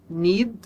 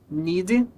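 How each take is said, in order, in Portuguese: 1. Termina limpo na consoante final. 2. Acrescenta-se uma vogal extra depois da consoante final.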